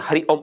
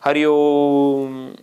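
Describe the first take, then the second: First: हरि ओम said quick, ओम clipped short; the wrong way, ओम cut off fast; short Hari Om. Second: हरि ओम with ओम stretched very long and slow; an old man rising from his cot, drawing out ओम; drawn-out Hari Om. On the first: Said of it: "ऐसे तो नहीं वो बोलता". (ओम को छोटा और झटके से बोलना) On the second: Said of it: "वैसे कहते हुए खड़ा होता है". (बूढ़ा व्यक्ति उठते हुए, ओम को बहुत लंबा खींचकर बोलना) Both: Shown as a demonstration.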